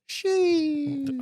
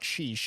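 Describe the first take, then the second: First: The word is said with a strong inflection. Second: The word is said flat, without inflection. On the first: The speaker calls it right. "you have to say it with the inflection" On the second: The speaker calls it wrong. "It's it's not sheesh"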